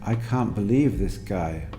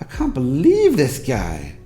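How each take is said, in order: First: The pitch varies a little but stays fairly flat. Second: The pitch moves widely with emotional surprise. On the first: "sounds a bit more natural, but which is still a bit flat" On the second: "emotionally invested in what they were saying and were expressing an element of surprise"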